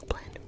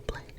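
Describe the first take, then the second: No difference in how they are said.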